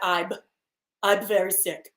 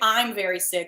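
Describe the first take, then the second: First: The m sounds are blocked, like b, stuffed-up. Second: The m sounds are clear, with air through the nose. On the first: "It comes out I'm I'm very sick because I can't I can't get any air to go through my nose" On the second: "You don't say I'm very sick"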